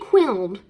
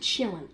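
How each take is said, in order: First: The word begins with a 'kw' sound. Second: The word begins with a 'ch' sound. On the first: The speaker calls it wrong. "I did say quilled" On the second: The speaker calls it right. "I did not know it was pronounced a chillin'"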